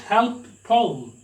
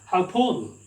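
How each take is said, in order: First: Both p sounds are pronounced separately. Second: Only one p sound is pronounced. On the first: The speaker calls it wrong. "not help Paul" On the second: The speaker calls it right. "it sounds help Paul"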